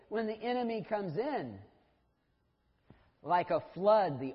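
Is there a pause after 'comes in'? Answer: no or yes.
yes. There is a pause after 'comes in'. The Lord's power comes like a flood. The speaker calls it right. "they read it and they say"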